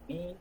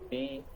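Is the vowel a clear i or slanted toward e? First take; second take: clear i; e-like. First: The vowel is a clear, pure i. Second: The vowel is slanted, drifting toward e. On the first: The speaker calls it right. "Harus jelas i" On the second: The speaker calls it wrong. "kita baca kasroh kadang juga gitu... ini tidak boleh"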